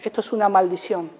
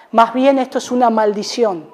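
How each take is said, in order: First: "Esto es una maldición" repeated much softer and quicker; soft quick echo. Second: Said in the usual way. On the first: Real, not acted. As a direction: drop to a near-hush on "Esto es una maldición". Eco de la frase. (eco suave y rápido de "Esto es una maldición")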